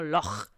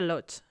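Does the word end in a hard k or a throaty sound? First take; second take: throaty; hard k. First: The word ends with a throaty rasping sound. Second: The word ends with a hard k sound. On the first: The speaker calls it right. "se pronuncia algo así como loch" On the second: The speaker calls it wrong. "no se pronuncia loch"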